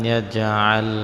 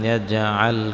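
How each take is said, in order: Both takes have the same delivery.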